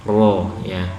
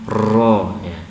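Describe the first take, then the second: The two takes are said the same way.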